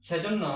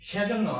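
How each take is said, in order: The two takes are said the same way.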